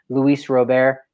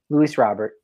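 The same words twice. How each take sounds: First: Robert is given a Spanish-style pronunciation. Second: Robert is given a plain English pronunciation. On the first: The speaker calls it wrong. "You try to make it a little more cultured from a player from Cuba" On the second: The speaker calls it right.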